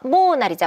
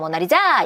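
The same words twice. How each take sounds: First: The stress is on the first syllable. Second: The stress is on the fourth syllable. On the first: "첫 번째야" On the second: "네 번째야"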